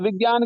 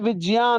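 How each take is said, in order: First: The middle cluster is sounded with a g sound. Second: The middle cluster is sounded with a j sound. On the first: The speaker calls it wrong. "विज्ञान की जगह" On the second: The speaker calls it right. "विज्ञान होता है"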